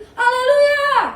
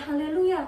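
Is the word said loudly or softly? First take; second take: loudly; softly. First: It is said loudly and forcefully. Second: It is said softly and quietly. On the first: The speaker calls it right. "tapi haleluya" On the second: The speaker calls it wrong. "bukan haleluya"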